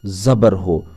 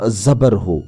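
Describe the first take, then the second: No difference in how they are said.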